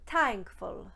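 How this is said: It begins with a hard t sound.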